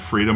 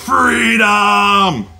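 First: The word is said at normal, calm volume. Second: The word is yelled loudly and dramatically. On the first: "Every time I've said freedom" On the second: "I wanted to yell it like Mel Gibson did in Braveheart"

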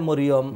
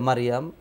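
First: It is said with short Bengali-style o vowels. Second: It is said with long Arabic-style a vowels. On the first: This is how it is said in Bengali. "বাংলায় মরিয়ম" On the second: This is how it is said in Arabic. "আরবিতে মারিয়াম"

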